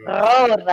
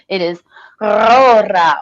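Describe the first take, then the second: First: Rorau starting with a throaty R at the back of the throat, like a gargle; gargled R. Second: Rorau with a throaty gargled R, then a trilled R; Rorau, first R gargled at the back of the throat, second R rolled; rolled German R. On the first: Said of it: "in the back of the throat like a gargle". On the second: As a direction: say Rorau rolling the R two ways. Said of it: "roll your R's in two different ways". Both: Shown as a demonstration.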